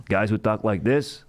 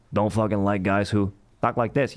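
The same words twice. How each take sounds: First: Slow mock voice. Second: Other mock voice.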